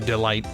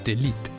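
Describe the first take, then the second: First: The last syllable rhymes with 'light'. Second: The last syllable rhymes with 'leet'. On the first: This is the name as the person prefers it. "Now they prefer to go by Delight" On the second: This is the name read as French. "But if it if it's French, it's Delete"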